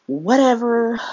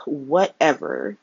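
First: Higher and louder, scoffing; dismissive whatever. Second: Resigned whatever. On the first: Brushing off Curtis's bad plan, loud and scoffing. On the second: Giving up on Curtis's bad plan, slow and resigned. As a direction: let it sag out slowly, giving up. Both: Real, not acted.

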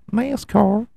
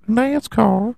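First: "nascar" pitched way up, slow rising; high questioning nascar. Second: "nascar" even higher, rising; squeaky nascar. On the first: Teasing listeners about the sport, high rising. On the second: Mocking the sport's name, squeaky high. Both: Shown as a demonstration. Says the word twice.

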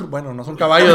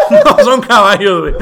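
First: Said in the usual way. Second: Cracking up while repeating it; laughing. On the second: Real, not acted.

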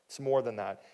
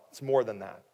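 The two takes are said the same way.

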